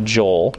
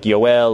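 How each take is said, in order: First: The name begins with a J sound. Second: The name begins with a Y sound. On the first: This is the usual English form of the name. "we would pronounce it Joel" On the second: This is the Greek form of the name. "The Greek term for Joel is Yoel"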